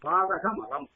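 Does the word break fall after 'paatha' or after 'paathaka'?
after paathaka. The break falls after 'paathaka'. The filth of sin. "பாதகமலம் நீங்கும்"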